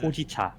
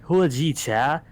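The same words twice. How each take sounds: First: It is said plainly without a put-on accent. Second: It is said in an exaggerated put-on accent. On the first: It is the straightforward way to say it. The speaker calls it right. "more than capable of just saying Hojicha" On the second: It mocks how someone else says it. The speaker calls it wrong. "You're like going like Hojicha, something like that. That's what you're sounding like"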